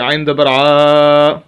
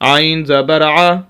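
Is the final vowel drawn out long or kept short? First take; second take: long; short. First: The final vowel is drawn out long. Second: The final vowel is kept short. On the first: The speaker calls it wrong. "आप इसको ऐसे नहीं पढ़ सकते" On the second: The speaker calls it right. "लंबा नहीं करना"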